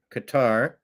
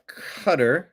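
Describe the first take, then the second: First: Qatar said as "kuh-TAR"; variant pronunciation. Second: Qatar said as "cutter"; variant pronunciation. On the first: Host offering the other pronunciation, Qatar as "kuh-TAR". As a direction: stress the second syllable of Qatar, "kuh-TAR". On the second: Host reading about the Emir, Qatar pronounced "cutter". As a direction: stress the first syllable of Qatar, like "cutter". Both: Shown as a demonstration. Two ways of saying Qatar.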